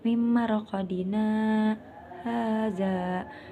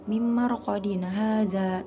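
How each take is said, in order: First: There is a brief stop after marqadina. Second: The words run on without a stop after marqadina. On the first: The speaker calls it right. "berhenti sebentar tanpa bernapas" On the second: The speaker calls it wrong. "tidak gitu"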